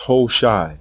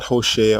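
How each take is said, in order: First: The name ends in a long 'i' sound. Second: The name ends in an 'a' sound. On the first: The speaker calls it right. "The king's name is pronounced Hoshai" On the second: The speaker calls it wrong. "not Hoshea"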